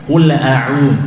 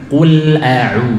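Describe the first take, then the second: No difference in how they are said.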